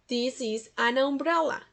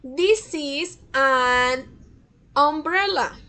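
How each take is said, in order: First: Said in the usual way. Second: Very slow, each word set apart; deliberate teacher demo, word by word; slow model sentence. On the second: Shown as a demonstration. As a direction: read it slowly for the class to repeat. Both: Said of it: "Acá tenemos también un sonido de vocal".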